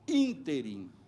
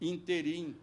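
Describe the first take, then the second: First: The stress falls on the first syllable. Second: The stress falls on the last syllable. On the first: The speaker calls it right. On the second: The speaker calls it wrong. "Ninguém dirá, por exemplo"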